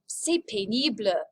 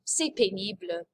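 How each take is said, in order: First: Said in the usual way. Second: Lower, sighing "C'est pénible" like it's a chore; bored and fed up. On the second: Shown as a demonstration. Teacher to class, modelling boredom: bored sigh. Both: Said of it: "Ugh, it's boring".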